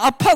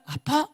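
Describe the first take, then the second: First: High, louder caring "아파?"; sympathetic echo. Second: High, soft, hushed "아파?"; softer sympathetic echo. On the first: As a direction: ask "아파?" with warm concern. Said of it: "위로가 되지 않는다는 겁니다". (걱정스럽게 되묻는 "아파?") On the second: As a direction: ask "아파?" tenderly and quietly. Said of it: "이거예요". (부드럽고 조용하게 되묻는 "아파?") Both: Shown as a demonstration.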